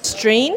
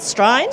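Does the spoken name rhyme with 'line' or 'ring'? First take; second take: ring; line. First: The name ends like the word 'ring'. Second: The name ends like the word 'line'. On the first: The speaker calls it wrong. "I've been pronouncing it String & Co" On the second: The speaker calls it right.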